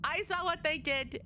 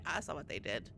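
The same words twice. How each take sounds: First: "what" hit high and firm; stress on what. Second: Low, quiet ominous mutter. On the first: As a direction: lean hard on "what". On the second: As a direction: mutter it darkly under breath. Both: Shown as a demonstration. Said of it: "repeats line with emphasis".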